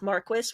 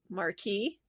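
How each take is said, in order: First: The word is pronounced the English way. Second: The word is pronounced the French way. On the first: "which is the English version" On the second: "He takes the French pronunciation"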